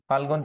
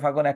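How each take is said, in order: First: An l sound is heard before the g. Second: No l sound is heard before the g. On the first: "ফাল্গুন থেকে ফাগুন একটা ল লোপ পেয়েছে" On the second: "একটা ল লোপ পেয়েছে"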